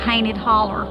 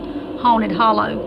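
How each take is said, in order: First: It is said with a local dialect pronunciation. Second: It is said with a standard pronunciation. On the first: "a place in Georgia called Hainted Holler" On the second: "the correct pronunciation would be Haunted Hollow"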